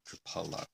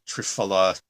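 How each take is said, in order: First: The middle consonant is an aspirated p. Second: The middle consonant is an f sound. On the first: "you don't have to sound like me and call it triphala" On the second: "triphala is the common pronunciation in the West"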